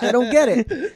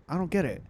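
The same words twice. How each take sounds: First: High, louder, amused confusion; laughing bafflement. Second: Soft, understated bafflement; puzzled aside. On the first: Recalling the slang to laughing friends, amused bafflement. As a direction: protest it through a laugh. Repeats puzzlement while laughing. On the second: Recalling middle school slang he missed, quiet puzzlement. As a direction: mumble it softly as a puzzled kid. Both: Retold or imitated.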